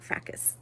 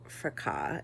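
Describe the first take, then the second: First: The word is given an English-style pronunciation. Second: The word is given a French-style pronunciation. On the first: The speaker calls it wrong. "not fracas" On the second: The speaker calls it right. "it's French, I think. ... so fracas is probably actually how you say it"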